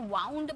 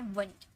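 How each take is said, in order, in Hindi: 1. यह स्वर 'cow' के 'ow' जैसा सुनाई देता है। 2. यह स्वर 'food' के 'oo' जैसा सुनाई देता है। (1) "कभी भी इसे वाउंड मत पढ़िएगा" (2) "ये है वंड। वुंड मतलब घाव"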